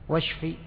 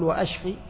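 First: The word links smoothly without a glottal stop. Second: The word has a clear glottal stop after wa. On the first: It asks for healing. The speaker calls it right. "شوف همزة القطع وهمزة الوصل" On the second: It asks for destruction. The speaker calls it wrong. "ما تقول وأشفي؟ وأشفي يعني أهلك"

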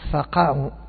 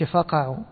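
First: The stress falls on the second syllable. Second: The stress falls on the first syllable. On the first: It is a command to fall down. The speaker calls it right. "إنما تقول فقعوا. ... هذا يسمى النبر" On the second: It sounds like a verb meaning to gouge out. The speaker calls it wrong. "ما تقولش فقعوا، لو قال فقعوا كأنه من الفقع"

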